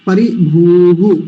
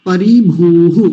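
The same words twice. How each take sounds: The two takes are said the same way.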